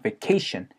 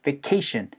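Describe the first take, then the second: First: The first syllable shrinks to 've', stress on 'ca'. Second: The first syllable shrinks to 've', stress on 'ca'.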